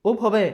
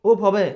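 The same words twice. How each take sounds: Both takes have the same delivery.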